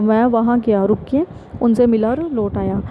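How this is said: It has a clear pause after 'गया'. The listener knows where to stop. The speaker calls it right. "रुक के"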